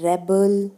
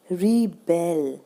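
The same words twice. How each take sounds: First: रेबल with a strong RE, second syllable light; stress on first syllable. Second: रिबेल slowly, with a long strong BEL; stress on second syllable. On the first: Teacher showing the noun form, stress on the first syllable of रेबल. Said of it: "र पे stress आ गया". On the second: Teacher showing the verb form, stress on the second syllable of रिबेल. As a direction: hold back RI, then land on BEL in रिबेल. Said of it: "अगर हम इसको verb में use करेंगे". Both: Shown as a demonstration.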